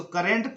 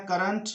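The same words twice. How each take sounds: First: करंट as "ka-rent"; mistaken e vowel. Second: करंट as "ka-runt"; correct schwa. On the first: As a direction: quote the wrong करंट with a clear "rent". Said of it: "करंट पढ़ते हैं कुछ लोग गलती से". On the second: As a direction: model करंट with "uh" in the last syllable. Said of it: "इसको पढ़ना है करंट". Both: Shown as a demonstration.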